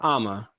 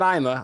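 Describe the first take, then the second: First: The first vowel sounds like an open ah. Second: The first vowel sounds like the word eye. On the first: The speaker calls it right. "but Ama" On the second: The speaker calls it wrong. "Not I'm a"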